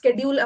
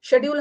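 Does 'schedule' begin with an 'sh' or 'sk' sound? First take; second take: sk; sh. First: The word begins with an 'sk' sound. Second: The word begins with an 'sh' sound. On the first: This is the American way of saying it. "स्केड्यूल American में बोलते हैं" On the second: This is the British way of saying it. "शेड्यूल हम British में बोलते हैं"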